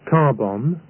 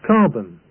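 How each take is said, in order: First: Both syllables are given equal, full weight. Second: The second syllable is short and reduced. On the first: The speaker calls it wrong. "It's not pronounced carbon" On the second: The speaker calls it right. "The same is true for the word carbon"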